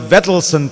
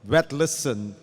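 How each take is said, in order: First: The name begins with a clear V sound. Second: The name begins with a W-like sound. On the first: The speaker calls it wrong. "you have not understood the, the proper Norwegian pronunciation" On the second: The speaker calls it right. "Swallow the V, make it sound more like a W"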